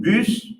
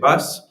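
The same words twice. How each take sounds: First: The vowel is a rounded French u sound. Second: The vowel is the open English u sound. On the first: "as I pronounce it is a French word" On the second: "if I pronounce it the English word in the English way"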